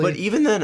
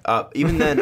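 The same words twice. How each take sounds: First: "even" breaks into a squeak; voice cracking. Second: Said in the usual way. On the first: Real, not acted. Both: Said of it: "that was a bad voice crack".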